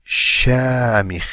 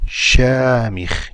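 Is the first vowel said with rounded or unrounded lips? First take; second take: unrounded; unrounded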